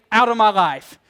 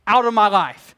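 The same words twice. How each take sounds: The two takes are said the same way.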